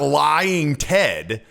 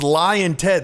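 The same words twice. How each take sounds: First: It sounds stiff, forced and overacted. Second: It sounds casual, offhand and flippant. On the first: It is not congruent with who is saying it. The speaker calls it wrong. "It's not Lying Ted" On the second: It is said as a natural throwaway jab. The speaker calls it right. "it's casual and flippant"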